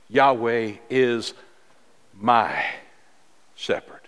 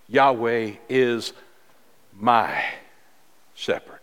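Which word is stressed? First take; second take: my; my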